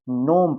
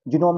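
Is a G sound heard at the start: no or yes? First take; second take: no; yes. First: It starts directly with the N sound. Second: It starts with a G sound before the N. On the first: The speaker calls it right. "नोम पढ़ना है" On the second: The speaker calls it wrong. "जिनोम नहीं पढ़ना है इसको"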